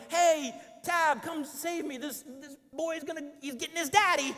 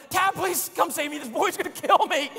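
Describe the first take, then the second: First: High, cutesy mock plea to the wife; lightly sung-out cute call; mock-cute cry for rescue; cute call for help. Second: High, louder panicked call to Tab; real-sounding desperate plea; desperate yell. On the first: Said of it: "it wasn't like a cute". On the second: Retold or imitated. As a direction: beg the wife to come save you. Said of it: "It was more like a".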